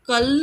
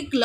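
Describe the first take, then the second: First: कल with a vowel between क and ल; unblended reading. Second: क्ल with क running straight into ल; क्ल as one new sound; blended consonants. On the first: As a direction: say कल as a plain syllable ending in ल. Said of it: "ना होकर के". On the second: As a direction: join क and ल in क्ल. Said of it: "क्ल हो गया". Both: Shown as a demonstration.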